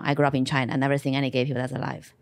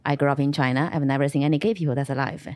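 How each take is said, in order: Both takes have the same delivery.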